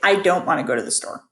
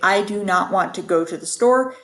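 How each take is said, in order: First: Do not is shortened into one syllable. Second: Do not is said as two full words. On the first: "It's just easier to say" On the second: "it's just a lot more to say"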